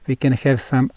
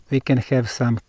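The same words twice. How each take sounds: The two takes are said the same way.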